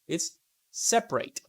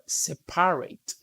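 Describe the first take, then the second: First: The vowel after the first syllable is dropped. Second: The vowel after the first syllable is pronounced. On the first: The speaker calls it right. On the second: The speaker calls it wrong.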